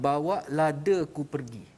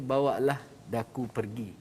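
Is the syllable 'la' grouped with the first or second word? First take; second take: Second word; First word. First: The syllable 'la' is joined to the second word. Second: The syllable 'la' is joined to the first word. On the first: Carry my chili away. The speaker calls it wrong. "Seolah-olah kita dengar" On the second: Please take me away. The speaker calls it right. "Sebenarnya dia nak kata"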